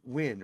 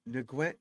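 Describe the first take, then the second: First: The name is said as one syllable, win. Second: The name is said with several syllables. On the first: The speaker calls it right. "N G U N is Win, right?" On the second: The speaker calls it wrong.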